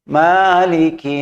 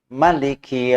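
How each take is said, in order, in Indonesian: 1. Vokal pertama panjang. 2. Vokal pertama pendek. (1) "Ma ya panjang" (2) "Ma-nya pendek aja"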